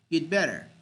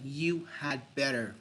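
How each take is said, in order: First: Had is reduced to a d sound. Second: The word had is said in full. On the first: The speaker calls it right. "We say you'd better" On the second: The speaker calls it wrong. "we rarely say you had better"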